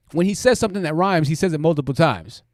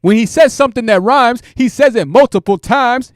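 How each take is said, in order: First: Said in the usual way. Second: "says" belted louder and higher, right into the mic; a loud, higher parody of a streamer clipping his mic; mocking mic-blasting yell. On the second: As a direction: shout it like he's eating the microphone. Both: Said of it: "gets real close to the mic to where the mic starts clipping".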